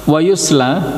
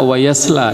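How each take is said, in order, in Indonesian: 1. Vokal setelah y adalah u. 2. Vokal setelah y adalah a. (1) "dibaca oleh beberapa ulama dengan didhammahkan iya-nya" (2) "mayoritas ulama membaca"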